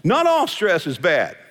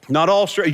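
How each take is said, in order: First: Slow, firm stress on "all". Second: "all" punched again, louder, in a short restatement; firm, louder repeat leaning on "all"; repeated stress on all. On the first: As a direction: lean into "all" to correct the listener. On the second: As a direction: drive home "all" a second time. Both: Real, not acted. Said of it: "let me say this about stress".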